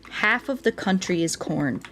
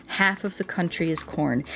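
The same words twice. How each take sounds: The two takes are said the same way.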